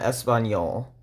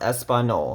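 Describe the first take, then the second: First: It has an ny sound before the end. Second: It has a plain n sound before the end. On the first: The speaker calls it right. "not Español" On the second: The speaker calls it wrong. "that would be pronounced Espanol"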